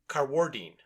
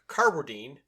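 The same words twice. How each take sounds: First: The stress is on the second syllable. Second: The stress is on the first syllable. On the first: The speaker calls it right. "he puts the accent on the second syllable" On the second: The speaker calls it wrong. "I was saying Mark's name incorrectly"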